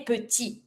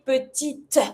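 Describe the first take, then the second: First: Petit with the T left off; French "petit" said puh-tee; silent final T. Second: Petite with the T released separately; French "petite" said puh-teet, extra T; sounded final T. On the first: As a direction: end "petit" on the ee vowel. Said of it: "without pronouncing your T". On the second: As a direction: punch out the T ending "petite". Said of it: "I'm gonna pronounce my last T". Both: Shown as a demonstration.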